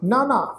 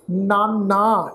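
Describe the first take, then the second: First: ਨਾਨਾ said quick and light with no pressure; the correct airy ਨਾਨਾ, nothing pressed; ਨਾਨਾ flicked off lightly with a falling end; light, weightless way. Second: ਨਾਨਾ drawn out slowly with weight pressed on it; ਨਾਨਾ said slow and weighted, the mistaken way; wrong, pressed way. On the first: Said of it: "ਅਸੀਂ ਭਾਰ ਰਹਿਤ ਉਚਾਰਨ ਕਰਾਂਗੇ". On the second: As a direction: demonstrate the heavy, pressured ਨਾਨਾ to avoid. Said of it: "ਇਸ ਢੰਗ ਨਾਲ ਪਾਠ ਉਚਾਰਨ ਨਹੀਂ ਕਰਨਾ, ਦਬਾ ਕੇ". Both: Shown as a demonstration.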